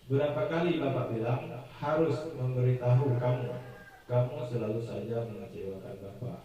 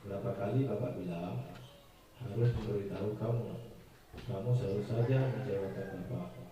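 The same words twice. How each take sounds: First: It is spoken in a plain, neutral tone. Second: It is spoken in a soft, gentle tone.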